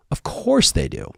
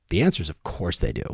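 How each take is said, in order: First: "course" hit high and falling; emphatic repeat. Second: Said in the usual way. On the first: Real, not acted. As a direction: lift and punch "course".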